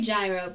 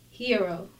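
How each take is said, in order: First: It is said the everyday American way. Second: It is said the Greek way. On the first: This is how the speaker normally says it. "I say gyro" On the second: This is the original, correct pronunciation. "but it's pronounced hero"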